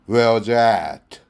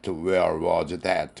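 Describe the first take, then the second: First: The last word begins with a vowel, like 'at'. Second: The last word begins with a clear 'th' sound. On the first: The speaker calls it right. "at라고 하면 똑같아집니다" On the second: The speaker calls it wrong. "괴상한 발음으로 끝납니다"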